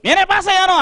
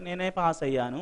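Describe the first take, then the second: First: It is said loudly at a high pitch. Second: It is said moderately at a medium pitch. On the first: The speaker is fully confident. "అంటాడు గట్టిగా / ముందు high పిచ్లో వచ్చింది" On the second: The speaker is less confident. "Second కొంచెం medium వచ్చింది"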